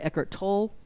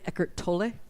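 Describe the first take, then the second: First: The name ends without an 'eh' vowel. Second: The name ends with an 'eh' vowel. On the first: The speaker calls it wrong. "a lot of people say" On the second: The speaker calls it right. "it's really Eckhart Tolle. It's kind of a eh at the end of it"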